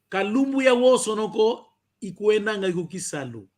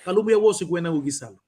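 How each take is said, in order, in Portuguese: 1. Cada palavra é pronunciada completa e separadamente. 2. As palavras são reduzidas e pronunciadas juntas. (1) "tínhamos que tocar todas as palavras para te facilitar ao escrever" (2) "ao falar, se eu estiver para falar, eu só diria assim"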